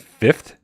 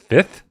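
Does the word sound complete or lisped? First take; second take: complete; lisped. First: The word is said with all its sounds. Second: The word is said missing a sound, like a lisp. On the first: "I feel like it should be fifth" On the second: "but it's just fifth. And so I feel like I'm speaking with a lisp"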